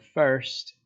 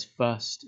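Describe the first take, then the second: First: Said in the usual way. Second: "fust" said with the r dropped, like "fuss" plus t; written dialect word. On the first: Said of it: "when he says the word first". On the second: Shown as a demonstration. Teacher reads the old drunk man's spelling "fust" aloud, r dropped. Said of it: "he says".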